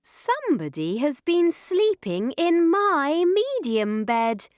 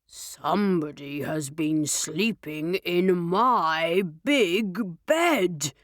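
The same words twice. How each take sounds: First: Higher, lilting mother bear; story-time mama bear, swooping upward; middle-sized Mummy Bear voice. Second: Low, slow, gruff bear; big papa bear voice; deep, gruff Daddy Bear. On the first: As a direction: pitch it up with indignation. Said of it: "in her middle-sized voice". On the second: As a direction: call it out deep and gruff, unhurried. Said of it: "gruff voice". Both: A narrator's reading.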